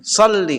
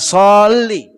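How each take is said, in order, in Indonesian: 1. Vokal pertama dibaca pendek. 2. Vokal pertama dibaca panjang. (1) "Dia pendek, nggak panjang" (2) "bukan panjang so"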